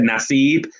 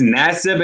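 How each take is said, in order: First: The name is pronounced the Arabic way. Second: The name is pronounced the English way. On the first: "that's how you would say it in the Arabic language" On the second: "in the English uh, pronunciation"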